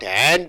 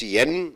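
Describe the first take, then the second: First: The word is said in full with its vowel. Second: The word is reduced to a short 'n' sound. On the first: The speaker calls it wrong. "not and. You don't say and" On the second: The speaker calls it right. "and is pronounced as just n"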